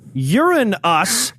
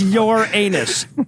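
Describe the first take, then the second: First: The name sounds like it contains the word 'urine'. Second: The name sounds like it contains the word 'anus'. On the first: It invites jokes about urine instead. "Uranus is also an ex- uh, acceptable pronunciation" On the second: It invites jokes about a backside. "The correct pronunciation is your anus"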